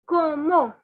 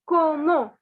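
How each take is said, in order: First: It is said the French way, ending in an o-sound. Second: The same.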